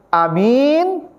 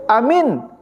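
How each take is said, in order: First: Only the second vowel is held long. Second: Both vowels are said short. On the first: It means a trustworthy person. "kalau panjang ya-nya, ... A-nya tidak panjang, itu artinya uh, jujur artinya" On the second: It means believe it. "Kalau pendek amin artinya percayalah"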